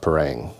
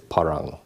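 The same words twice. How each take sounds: First: It is pronounced the Western way. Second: It is pronounced the local way. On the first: The speaker calls it wrong. "Westerners call it parang" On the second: The speaker calls it right. "how it's pronounced locally"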